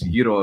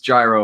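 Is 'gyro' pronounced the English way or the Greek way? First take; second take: Greek; English. First: The word is pronounced the Greek way. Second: The word is pronounced the English way. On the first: "It's gyro if I'm if I'm speaking Greek" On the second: "It's gyro if I'm talking English"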